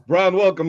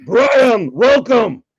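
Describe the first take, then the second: First: Said in the usual way. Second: Loud, higher ceremonial welcome; Hungry Shark shout. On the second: Acted. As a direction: proclaim it like a mock herald. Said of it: "the Hungry Shark would like to welcome".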